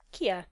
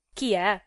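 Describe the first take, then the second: First: Said in the usual way. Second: Loud, incensed repeat; enraged echo. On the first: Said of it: "Il nome non m'arriva nuovo". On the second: A narrator's reading. Gigi repeating his friend's question, blood in his eyes, furious. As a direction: throw the question back in anger. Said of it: "ripeté col sangue agli occhi Gigi Venanzi".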